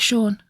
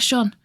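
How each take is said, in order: First: The word is said in an American way. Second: The word is said in the speaker's British way. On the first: "I think Americans say Sean" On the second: "I say Sean"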